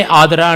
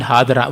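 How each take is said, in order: First: Adara opened straight on the A; no H before the A of Adara; vowel-initial word. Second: Hadara opened with an audible H; H-initial word. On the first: Lecturer contrasting Kannada words, Adara with no opening H. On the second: Lecturer contrasting Kannada words, Hadara with opening H. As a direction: breathe an H into the start of Hadara. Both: Shown as a demonstration. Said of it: "what amount of difference in Kannada".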